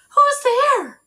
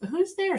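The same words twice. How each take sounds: First: High, loud startled call. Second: Said in the usual way. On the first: Acted. Baby woken at night, calling out startled. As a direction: wake up and call out alarmed. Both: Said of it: "she said".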